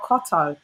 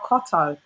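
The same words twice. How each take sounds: First: The name is said in a British accent. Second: The same.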